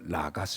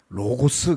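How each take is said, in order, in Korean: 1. 첫 번째 모음은 'ah'에 더 가깝게 들립니다. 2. 첫 번째 모음은 분명한 'oh' 소리가 납니다. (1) "아, 오 사이로 난다. 그래서 라가스 이렇게 읽는 거예요" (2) "로고스 그러지 말고"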